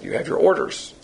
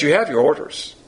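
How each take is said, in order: First: Mock German accent on the orders. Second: Said in the usual way. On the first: Shown as a demonstration. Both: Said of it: "if I use your German accent".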